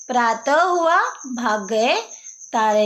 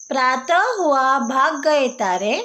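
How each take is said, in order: First: Said in the usual way. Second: प्रातः हुआ भाग गए तारे in a sing-song recitation lilt; recited rhyme. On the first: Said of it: "तो देखो क्या हुआ है". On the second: Shown as a demonstration. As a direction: recite it like a children's poem.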